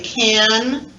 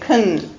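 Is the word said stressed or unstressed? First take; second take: stressed; unstressed. First: The word is said full and stressed. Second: The word is said reduced and unstressed.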